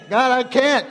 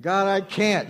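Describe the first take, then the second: First: "God, I can't" pitched higher and louder; insistent protest. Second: Said in the usual way. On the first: Acted. Believer arguing harder with God, raised insistent protest. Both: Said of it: "And God's saying".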